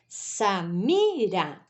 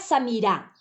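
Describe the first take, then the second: First: The stress is on the middle syllable. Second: The stress is not on the middle syllable. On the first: The speaker calls it right. "o mi é a sílaba tônica" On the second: The speaker calls it wrong. "Não é Samira"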